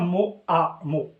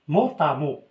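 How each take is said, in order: First: The t is not linked to the next vowel. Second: The t is linked to the next vowel. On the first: The speaker calls it wrong. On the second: The speaker calls it right.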